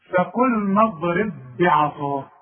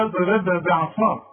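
First: نضرب بعصاك with merged ب, slowly; slow correct recitation. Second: اضرب بعصاك with both ب sounded apart; wrong reading. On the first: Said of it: "شوف". (تلاوة بطيئة مع الإدغام) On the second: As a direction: mimic the wrong double ب. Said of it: "اوعى تقول لي". (نطق خاطئ بإظهار الباءين) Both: Shown as a demonstration.

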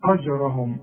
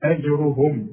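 First: أجرهم with the hamza split off; أجرهم with the hamza detached; wrong version. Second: أجرهم with a light hamza and only the ر heavy; correct model. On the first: Retold or imitated. Teacher showing the student's split hamza. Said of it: "ما نقولش". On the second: Shown as a demonstration. Teacher modelling the right version. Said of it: "ادي كل حرف حقه".

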